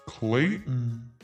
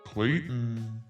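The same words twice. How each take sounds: The two takes are said the same way.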